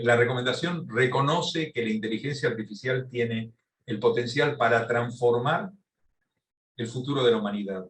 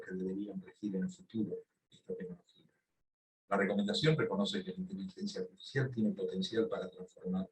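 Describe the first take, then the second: First: Raised, projected lecture voice; firm, louder delivery to be heard; speaking louder. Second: Speaking quietly, under-projected; too quiet to hear. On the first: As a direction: speak up clearly for a distant listener. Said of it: "hablo más fuerte entonces". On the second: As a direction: talk softly, as if to someone close by. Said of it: "le escuchamos bajito". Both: Real, not acted.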